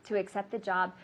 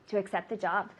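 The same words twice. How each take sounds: The two takes are said the same way.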